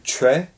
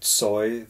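First: The name begins with a ch sound. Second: The name begins with a ts sound. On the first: This is how Koreans pronounce it. "the Koreans say Choi. ... that's the Korean pronunciation" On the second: This is how Russians pronounce it. "the way the Russians would pronounce it"

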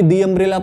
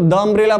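First: 'The' is said with a long 'thee' vowel. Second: 'The' is said with a short 'thuh' vowel. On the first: The speaker calls it right. "दी umbrella पढ़ेंगे" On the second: The speaker calls it wrong. "द umbrella पढ़ेंगे"

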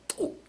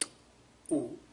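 First: A very short gap separates the consonant and vowel. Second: A long gap separates the consonant and vowel. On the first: "and eventually t, oo" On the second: "So you begin with t, oo, and then shorten it"

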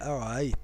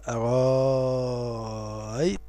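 First: The second hamza is softened, between hamza and vowel. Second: The second hamza becomes a long 'a' vowel. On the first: "التسهيل" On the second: "الإبدال وهو المقدم عند المغاربة"

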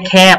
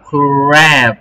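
First: The word starts with a plain k sound. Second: The word starts with a kr cluster. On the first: The speaker calls it wrong. "ไม่ใช่แคบนะลูก" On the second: The speaker calls it right. "ต้อง"

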